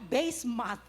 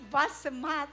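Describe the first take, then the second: First: The first syllable rhymes with 'face'. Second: The first syllable rhymes with 'fuss'. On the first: "Dondi said, by base math" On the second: "Maybe it's bus math"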